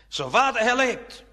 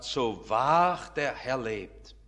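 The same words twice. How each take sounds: First: Raised, higher prophetic proclamation; called out. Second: Low, very slow, solemn oath; God's messenger. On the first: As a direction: call it out firmly to a haughty king. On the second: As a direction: pronounce it slowly and weightily as a prophet. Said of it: "Da tritt ein Elia auf als ein Bote Gottes und sagt". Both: Acted.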